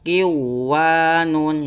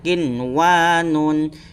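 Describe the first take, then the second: First: The n sound is dropped and merged. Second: The n sound is pronounced clearly. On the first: The speaker calls it wrong. "Jangan sampai dibaca kiwanun. Nah, itu keliru ya" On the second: The speaker calls it right. "Yang benar adalah harus jelas dan kemudian terang"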